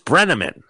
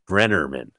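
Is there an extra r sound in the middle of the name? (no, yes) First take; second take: no; yes. First: No extra r sound follows the first syllable. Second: An extra r sound follows the first syllable. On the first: The speaker calls it right. "And the name is Brenneman" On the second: The speaker calls it wrong. "She throws in a second R"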